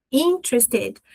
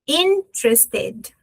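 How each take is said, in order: First: Said in the usual way. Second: "Interested" very slow, as in... tres-ted; teacher modelling "Interested" in slow separate beats; syllable by syllable. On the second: Shown as a demonstration. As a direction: break "Interested" after a long first syllable, closing on ted. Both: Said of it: "eu fecho com ted".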